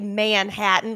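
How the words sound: The word is stretched out and drawn long. This is how a Southerner says it. "I kind of draw it out"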